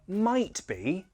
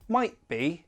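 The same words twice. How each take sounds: First: The T in might is fully released. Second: The T in might is a glottal stop. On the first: "True T" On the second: "Glottal T, I often use this"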